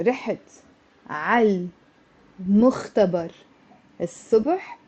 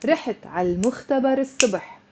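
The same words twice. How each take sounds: First: رحت على المختبر الصبح broken word by word; unlinked, halting; choppy with pauses. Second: رحت على المختبر الصبح rushed as one long word; liaison, flowing; linked, fast. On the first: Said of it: "Instead of saying". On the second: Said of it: "you have to say". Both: Shown as a demonstration.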